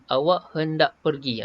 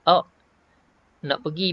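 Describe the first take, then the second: First: Every syllable is said fully and separately. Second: The middle word is shortened to one syllable. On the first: "tu tahqiq" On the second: "Tasir ni dia ringkaskan"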